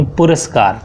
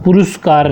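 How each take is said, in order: First: "पुरस्कार" with a short a after r; correct pronunciation. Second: "पुरस्कार" said as puruskaar, with u after r; wrong pronunciation. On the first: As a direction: say "पुरस्कार" as pu-ras-kaar. ("पुरस्कार" में र, सही उच्चारण) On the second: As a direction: put a second u in "पुरस्कार". ("पुरस्कार" को पुरुस्कार बोलना) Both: Shown as a demonstration. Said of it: "पुरस्कार नहीं".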